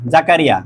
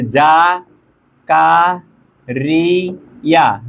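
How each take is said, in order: First: Said in the usual way. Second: "Zakaria" very slowly as ja, ka, ri, ya; long pauses between syllables of "Zakaria"; split into syllables. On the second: Shown as a demonstration. Teacher giving students a new word, "Zakaria" syllable by syllable.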